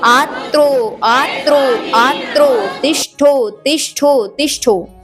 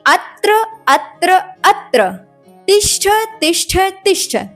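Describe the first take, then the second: First: The words end with an 'o' sound. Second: The words end with an 'a' sound. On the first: The speaker calls it wrong. "पहली बात तो गलती आपने यहां पर ही कर दी।" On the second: The speaker calls it right. "बल्कि अत्र अत्र अत्र तिष्ठ तिष्ठ तिष्ठ शब्द यह है।"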